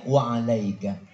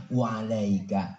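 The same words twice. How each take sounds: First: Calm reply. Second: Low, slow, unruffled answer; calm low reply. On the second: The Prophet answering the curse, calm and low. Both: Acted. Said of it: "balikin aja".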